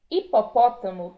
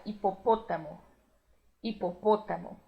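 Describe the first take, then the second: First: Said in the usual way. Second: Hipopótamo with the second O closed despite the accent; Spanish pronunciation. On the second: Shown as a demonstration. Teacher modelling Spanish for Brazilian learners, closed O. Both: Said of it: "pronúncia também fechada".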